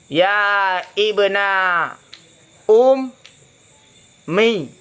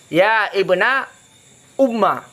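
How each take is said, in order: First: The last word ends in an 'ee' vowel. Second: The last word ends in an 'ah' vowel. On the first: "kasrah mim" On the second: "fathahnya mim"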